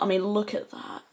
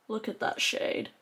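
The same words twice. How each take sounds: First: Said in the usual way. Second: Softer, breathy hushed admiration; awed hush. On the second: Real, not acted. Vlogger admiring the shade up close, hushed awe.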